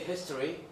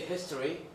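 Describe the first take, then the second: First: A short schwa vowel comes before the r. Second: The same.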